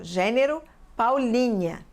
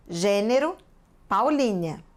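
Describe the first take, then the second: First: Said in the usual way. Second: "Gênero", pause, then "Paulínia", word by word; writing-out dictation. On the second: Real, not acted. Teacher writing the genus on the board, measured dictation. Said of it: "Vou anotar aqui".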